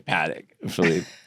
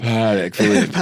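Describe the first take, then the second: First: It is said flat with a strong nasal American sound. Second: It is said with an exaggerated put-on French inflection. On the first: "like a very nasally paddock" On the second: "get the inflection to sound a little more uh, appropriate"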